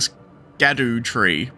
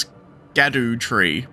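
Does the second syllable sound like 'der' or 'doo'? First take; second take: doo; doo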